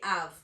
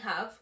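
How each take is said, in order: First: The word begins with no H sound. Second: The word begins with a clear H sound. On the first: "as if it were A V E, and we will completely ignore the H" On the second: "Instead of saying have"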